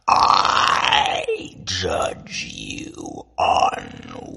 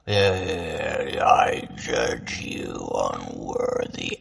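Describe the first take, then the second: First: It is spoken with exaggerated mouth movements. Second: It is spoken with normal mouth movements.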